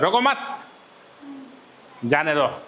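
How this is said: There is a pause right after 'mat'.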